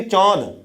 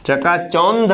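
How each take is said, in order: First: चौंध with nasal au and no n; चौंध, nasalized vowel straight into dh. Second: चकाचौंध with a full n before dh; चकाचौंध drawn out slowly with consonant n; wrong full-n reading. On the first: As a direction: say चौंध as chãudh, vowel through nose and mouth. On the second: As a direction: say चकाचौंध as chakachaundh, n clearly sounded. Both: Shown as a demonstration. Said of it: "अनुनासिक की तरह उच्चारण हो रहा है".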